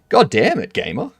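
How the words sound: It is said in a happy way.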